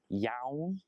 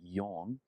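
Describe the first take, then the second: First: The vowel does not sound like the letter O. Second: The vowel sounds like the letter O. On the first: The speaker calls it wrong. "So not yawn" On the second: The speaker calls it right. "it sounds like the letter O"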